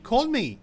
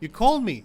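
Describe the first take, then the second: Both takes have the same delivery.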